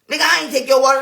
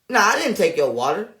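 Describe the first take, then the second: First: The denial sounds forceful and full of conviction. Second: The denial sounds casual and unconvincing.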